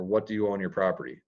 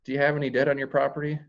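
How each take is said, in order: First: Fast, blunt and matter-of-fact; quick flat-out ask about what they owe; blunt question. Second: Fast, light and higher, breezy; upbeat, friendly take on the debt question. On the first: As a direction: fire it off bluntly, no softening. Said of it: "it's very blunt". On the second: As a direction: toss it off cheerfully, no weight on it. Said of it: "It's, it's upbeat". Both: Shown as a demonstration.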